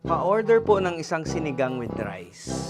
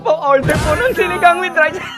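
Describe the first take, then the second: First: It is said in a plain, steady voice. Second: It is said while laughing, as if tickled.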